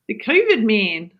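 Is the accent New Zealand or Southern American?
New Zealand. It is said in a New Zealand accent.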